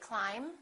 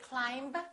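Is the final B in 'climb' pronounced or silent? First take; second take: silent; pronounced. First: The final B is silent. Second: The final B is pronounced. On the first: The speaker calls it right. "we say; the silent B" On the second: The speaker calls it wrong. "We don't say"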